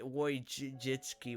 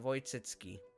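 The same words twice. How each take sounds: First: The name begins with a W sound. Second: The name begins with a V sound. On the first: This is the English-speaking bearer's own version. The speaker calls it wrong. "she says Woj- Wojcicki" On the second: This is the original Polish version. The speaker calls it right. "this is how it's actually supposed to be said"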